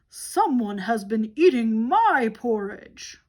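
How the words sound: It is said in a great big voice.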